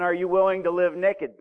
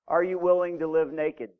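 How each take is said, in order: First: Naked is said in a Southern accent. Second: Naked is said in a standard accent.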